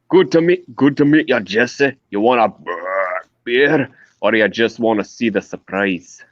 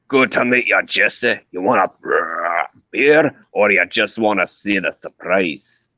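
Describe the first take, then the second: First: A Scottish voice, fairly smooth and easygoing. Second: A Scottish voice, rougher and more aggressive.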